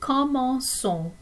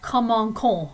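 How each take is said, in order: First: The c is said like an s. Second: The c is said like a k. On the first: The speaker calls it right. "to make it sound like a S" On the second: The speaker calls it wrong. "it would sound like commençons"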